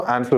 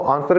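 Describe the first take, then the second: First: It is said with an American accent. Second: It is said with a British accent.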